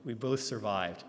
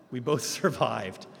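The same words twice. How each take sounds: First: Said in the usual way. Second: Laughing. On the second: Real, not acted. Speaker laughs recalling a pastor's terrifying driving. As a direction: laugh breaks through mid-line, slowed.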